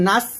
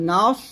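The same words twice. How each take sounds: First: "নাস" with a light, flat-tongued s; thin s. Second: "নাস" with a thick, rounded emphatic s; heavy Sad. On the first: Teacher showing learners the mistake, "নাস" with thin s. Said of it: "এখানে নাস বলবেন না". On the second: Teacher correcting learners, "নাস" with heavy Sad. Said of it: "নাস বলতে হবে". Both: Shown as a demonstration.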